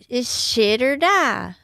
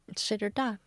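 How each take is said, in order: First: It is said dramatically, with gravitas. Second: It is said in a plain, matter-of-fact way.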